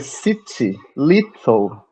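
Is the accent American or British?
British. Spoken with a British accent. The speaker calls it right. "Aqui é city, little. É muito mais, sabe, imponente"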